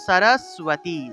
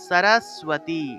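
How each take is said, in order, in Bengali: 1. মাঝের যুক্তবর্ণটি 'w' ধ্বনি সহ উচ্চারিত হয়। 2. মাঝের যুক্তবর্ণটি 'w' ধ্বনি সহ উচ্চারিত হয়।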